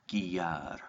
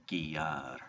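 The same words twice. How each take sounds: The two takes are said the same way.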